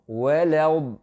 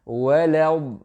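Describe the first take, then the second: No difference in how they are said.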